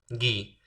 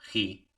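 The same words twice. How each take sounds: First: It starts with a hard g sound. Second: It starts with a throaty h-like sound. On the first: The syllable is written with a u between g and i. "Este es el gi" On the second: The syllable is written without the u. "si le quito la u"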